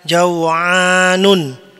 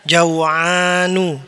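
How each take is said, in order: First: The word ends with an added n sound. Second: The word ends in a plain u vowel. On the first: The speaker calls it wrong. "tidak boleh dibaca jaw'anun" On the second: The speaker calls it right. "dia harus dibaca jaw'anu"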